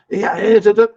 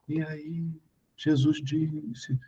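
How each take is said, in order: First: It is said in a forceful, intense tone. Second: It is said in a soft, calm tone.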